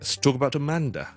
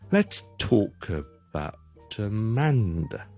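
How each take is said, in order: First: The sentence is said at a fast pace. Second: The sentence is said at a slow pace. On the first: "快嘅" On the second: "嚟一次慢嘅"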